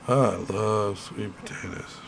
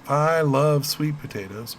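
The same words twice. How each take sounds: First: It is said in a sarcastic, mocking tone. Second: It is said in a sincere, genuine tone. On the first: The speaker does not like sweet potatoes. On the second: The speaker really likes sweet potatoes.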